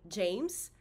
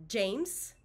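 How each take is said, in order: No difference in how they are said.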